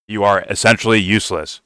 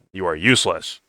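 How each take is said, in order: First: Essentially gets the extra weight, useless falls; stress on essentially. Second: Said in the usual way. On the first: Real, not acted. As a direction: lean into "essentially" to sharpen the insult.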